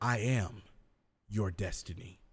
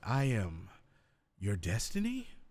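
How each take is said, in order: First: It is said firmly, with a direct tone. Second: It is said confused, like a question. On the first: The claim is made with authority. "now there's more of a direct tone to it" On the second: The speaker doubts the claim. "there could be a confused, like, ... now you sound unsure"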